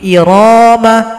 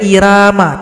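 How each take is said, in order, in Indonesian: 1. Bunyi r itu tebal dan berat. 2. Bunyi r itu tipis dan ringan. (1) "tetap ro dibaca tebal" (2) "tidak boleh"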